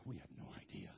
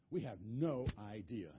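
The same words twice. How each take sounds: First: Whispered, softer, lower admission; sheepish whisper. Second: Said in the usual way. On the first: Retold or imitated. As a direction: whisper it like embarrassed wise men. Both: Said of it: "All those wise men go".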